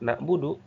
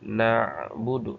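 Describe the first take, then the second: First: The 'ayn sound is cut off completely. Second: The 'ayn sound flows slightly before the b. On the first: The speaker calls it wrong. "tawasudnya tidak ada" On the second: The speaker calls it right. "supaya ada tawasud antara syiddah dan ikhwah"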